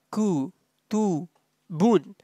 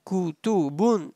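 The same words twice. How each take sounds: First: Ku, Tu, Bun softly, each on its own; syllable by syllable. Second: Kutubun softly, as one connected word; joined up. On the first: Teacher showing students each sound, syllable by syllable. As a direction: separate Ku, Tu and Bun with clear gaps. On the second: Teacher joining the sounds for students, joined up. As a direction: link ku, tu, bun into Kutubun. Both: Shown as a demonstration. Teacher spells out, then joins.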